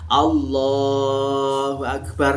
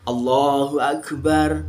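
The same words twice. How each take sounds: First: The vowel in Allah is drawn out long. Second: The vowel in Allah is kept short. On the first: It lasts until fully standing up from prostration. "lafadz Allah di dalam jalahnya panjang itu boleh" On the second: It marks a short movement in prayer. "nah itu cukup"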